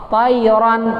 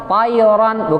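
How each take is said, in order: The two takes are said the same way.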